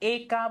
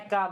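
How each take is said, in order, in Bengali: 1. প্রথম স্বরধ্বনিটি একটি বদ্ধ e ধ্বনি। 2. প্রথম স্বরধ্বনিটি একটি বিবৃত ae ধ্বনি। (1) "আমরা কিন্তু একা বলি না" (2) "আমরা একা বলি, এ যুক্ত করি"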